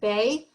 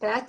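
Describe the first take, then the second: First: The name ends in an open vowel. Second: The name ends with a t sound. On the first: This is how the tradition said it. "it was pronounced Bay" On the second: This is not how the tradition said it. "Bet was not pronounced Bet"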